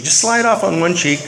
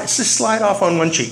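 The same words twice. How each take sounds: First: Said in the usual way. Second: Slow and drawn out. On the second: Shown as a demonstration. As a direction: stretch the words out slowly. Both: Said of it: "you wanna just kinda slide".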